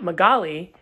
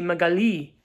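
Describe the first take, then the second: First: The name is said with a non-French pronunciation. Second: The name is said with a French pronunciation. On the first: "not Magali" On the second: "her first language is French. So they actually say Magali"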